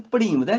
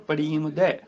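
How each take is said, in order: First: ਪੜੀਮਦੈ as if from the verb to read; mistaken ਪੜੀਮਦੈ. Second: ਪੜੀਮਦੈ with long ee and open dai; ai ending on ਪੜੀਮਦੈ. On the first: Teacher showing the mistake, ਪੜੀਮਦੈ as in reading. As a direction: say ਪੜੀਮਦੈ quickly like paṛh, to read. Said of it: "ਇਹਨੂੰ ਪੜੀਮਦੈ ਨਹੀਂ ਬੋਲਣਾ". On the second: Teacher giving the correction, ਪੜੀਮਦੈ ending in ai. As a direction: open the last vowel of ਪੜੀਮਦੈ to ai. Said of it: "ਦੱਦੇ ਨੂੰ ਦੁਲਾਵਾਂ". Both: Shown as a demonstration.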